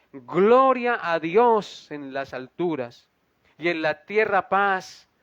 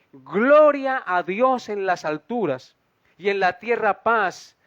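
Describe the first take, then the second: No difference in how they are said.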